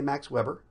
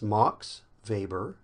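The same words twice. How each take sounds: First: The name is given an English reading pronunciation. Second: The name is given a German pronunciation. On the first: This is how a reader would naturally read it. "You probably wanted to say Max Weber" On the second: This is how it is said in the name's home country. "in Germany, you would say it Max Weber"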